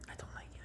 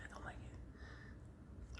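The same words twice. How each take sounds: First: Short whispered complaint; whispered grumble. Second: Drawn-out whisper, very slow; slowed whispered grumble. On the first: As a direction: whisper it quickly. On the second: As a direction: stretch the whisper out, sulking. Repeats complaint, slower whisper. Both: Real, not acted.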